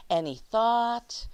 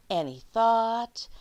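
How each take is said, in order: Both takes have the same delivery.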